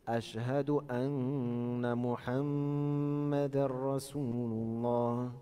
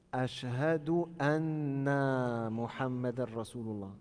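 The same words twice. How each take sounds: First: Slow, "anna" kept short flowing into "Muhammadan"; "anna Muhammadan" said directly; correct short anna. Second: Slow with "anna" stretched long; "anna" wrongly drawn out; wrong lengthening. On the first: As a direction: model it, no stretch on "anna". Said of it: "on fait anna Muhammadan directement". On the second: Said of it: "ils prolongent comme ça". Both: Shown as a demonstration.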